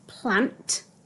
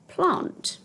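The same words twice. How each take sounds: First: The vowel is a short 'a' sound. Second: The vowel is a long 'ar' sound. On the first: This matches the spelling. "P-L-A-N-T, plant" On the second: This is how people in the speaker's region say it. "where we live, most people would say plant"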